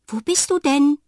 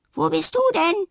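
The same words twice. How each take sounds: First: Loud, high call into the room. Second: Even higher echoing call; the voice echoes back higher. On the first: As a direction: call out searching. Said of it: "ruft sie". (laut rufend) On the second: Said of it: "echot es da zurück". (als Echo zurückhallend) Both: A narrator's reading.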